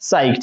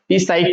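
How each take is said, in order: First: No P sound is heard before the word. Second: A P sound is heard before the word. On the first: The speaker calls it right. "ये पी जो है ना ये silent होगा" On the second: The speaker calls it wrong. "बहुत सारे बच्चे हैं जिनको पता नहीं है वो क्या पढ़ेंगे"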